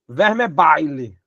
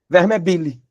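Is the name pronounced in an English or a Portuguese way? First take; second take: English; Portuguese. First: The name is pronounced the English way. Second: The name is pronounced the Portuguese way. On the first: The speaker calls it wrong. "A inclinação natural é dizer assim" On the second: The speaker calls it right. "o modo de pronúncia correta seria do nosso velho português mesmo"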